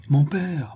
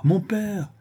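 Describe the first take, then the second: First: Calling out. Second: Second "mon père!" cried out much higher; anxious cry. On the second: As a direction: call "mon père!" pitched high in alarm. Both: A narrator's reading. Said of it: "s'écria le jeune homme".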